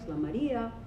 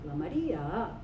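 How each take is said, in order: First: The pitch rises and then falls at the end. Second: The pitch rises, falls, then rises again. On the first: "like the circumflex" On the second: "like the rising, falling, rise"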